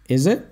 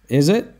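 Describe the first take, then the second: The two takes are said the same way.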